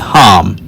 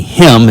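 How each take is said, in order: First: The word is said with an 'ah' vowel. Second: The word is said with an 'ee' vowel. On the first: This is the older Paleo Hebrew reading without vowel points. The speaker calls it right. "it be ham" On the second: This is the modern Hebrew reading with vowel points. The speaker calls it wrong. "It won't be him"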